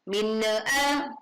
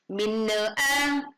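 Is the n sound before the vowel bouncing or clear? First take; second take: bouncing; bouncing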